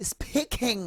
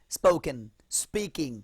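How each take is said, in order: First: "speaking" in a high, affected show-off voice; mock the posh overdone "speaking". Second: "spoken" and "speaking" with a plain unaspirated p, no puff of breath; unaspirated demo. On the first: Teacher mocking a student showing off with the word. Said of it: "ভাব নিয়ে বলবেন না". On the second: Shown as a demonstration. Teacher showing the class the right unaspirated p. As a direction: say the p after the s crisply, with no breath. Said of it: "বাংলার প, ট, ক".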